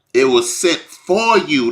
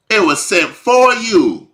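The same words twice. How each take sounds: First: Said in the usual way. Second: "It was sent for you." lifted much higher, "for" hit hard; higher emphatic repeat. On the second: Real, not acted. Preacher pressing the point to the congregation, high emphatic repeat. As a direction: drive the repeat home, pitch up high on "for".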